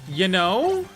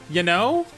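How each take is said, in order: No difference in how they are said.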